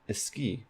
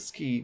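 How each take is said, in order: First: An extra vowel comes before the s sound. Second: It starts directly with the s sound. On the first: "they add this eh here" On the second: "instead of ski"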